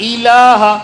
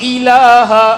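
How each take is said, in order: The two takes are said the same way.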